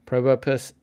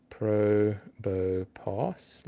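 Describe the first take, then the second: First: Said in the usual way. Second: Probopass drawn out very slowly, syllable by syllable; sounding it out. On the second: Shown as a demonstration. Streamer checking a spelling on a phone, sounding it out slowly. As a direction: stretch each part of Probopass, rising at the end. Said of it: "like that".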